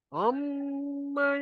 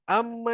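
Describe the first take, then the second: First: The m is held with a nasal hum. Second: The m is short without a nasal hum. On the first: The speaker calls it right. "Kita kena dengungkan dia" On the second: The speaker calls it wrong. "Dia tak dengung pun"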